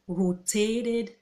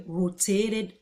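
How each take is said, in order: The two takes are said the same way.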